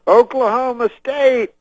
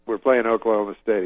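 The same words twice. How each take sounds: First: High, loud, drawn-out stage cry; Bill Cosby. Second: Said in the usual way. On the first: Retold or imitated. Cosby on stage working the stadium crowd, loud impression. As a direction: imitate rousing a huge crowd, long and high. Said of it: "he goes on stage and he goes".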